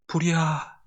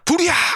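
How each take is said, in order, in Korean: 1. 작고 차분하게 말합니다. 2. 크고 다급하게 외칩니다. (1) "이렇게 말하라고" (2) "하지 말고"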